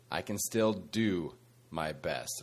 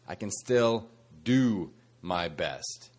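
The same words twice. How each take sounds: First: "I can still do my best" slow and soft, stress on "still"; slow emphatic key line. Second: "I can still do my best" slow, stress on "do"; slow and deliberate, lean on "do"; "do" stressed, unhurried; slow emphatic key line. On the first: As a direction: lean on "still", slow and quiet. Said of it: "here is the key mindset shift". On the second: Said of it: "again, the mindset shift is". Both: Shown as a demonstration.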